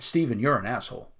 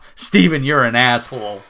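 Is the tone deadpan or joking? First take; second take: deadpan; joking. First: It is said flatly, with no expression at all. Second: It is said playfully, with a smiling voice. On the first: The insult may be meant seriously. "I'm deadpan" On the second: The insult is a joke. "but I'm smiling"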